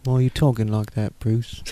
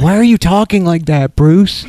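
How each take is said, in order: First: Quieter, lower, gruff butler voice; low gruff Alfred voice. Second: Exaggerated cartoon intonation. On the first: Retold or imitated. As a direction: mutter it like an old butler. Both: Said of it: "Be more what it's like".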